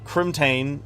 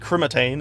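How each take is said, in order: First: No vowel is added between crim and tane. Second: An extra vowel is added between crim and tane. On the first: The speaker calls it right. "it's pronounced uh, Crimtane" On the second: The speaker calls it wrong. "I used to call it Crimatane. I added like an extra I or an A"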